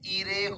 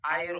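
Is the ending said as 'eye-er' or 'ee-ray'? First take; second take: ee-ray; eye-er. First: The ending sounds like 'ee-ray'. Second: The ending sounds like 'eye-er'. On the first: The speaker calls it wrong. "इरे होत नाही" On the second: The speaker calls it right. "आयर होतो"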